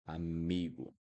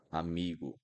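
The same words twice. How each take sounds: The two takes are said the same way.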